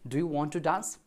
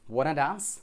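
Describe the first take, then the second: First: Every word of the question is said separately. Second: The question is squeezed into a quick reduced form. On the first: "कई बार हम अपने English conversation में बोलते हैं" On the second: "जो native speaker होते हैं, वो कुछ इस तरीके से बोलते हैं"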